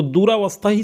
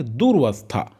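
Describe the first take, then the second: First: दूरावस्था with a long open "raa" in the middle; commonly mistaken form. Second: दुरवस्था with "dur" run straight into "vastha"; correct form demonstrated. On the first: Teacher shows students the tempting misspelling, commonly mistaken form. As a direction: say दूरावस्था as four beats, doo-raa-vas-tha. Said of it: "लेकिन दुरवस्था होता है". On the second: Teacher answers own question for students, correct form demonstrated. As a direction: say दुरवस्था as dur-vas-tha, no long aa. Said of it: "क्या होता है?". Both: Shown as a demonstration.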